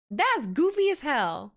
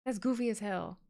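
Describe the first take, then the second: First: Slow, drawn-out and louder; amused disbelief. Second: Softer, dry throwaway; deadpan repeat. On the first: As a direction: stretch it out in mock outrage. Reacts to crowd chant guess. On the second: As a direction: say it again flat under your breath. Repeats the reaction. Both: Real, not acted.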